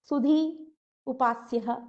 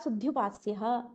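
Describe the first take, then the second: First: There is a short gap between the words. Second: The words run together with no gap.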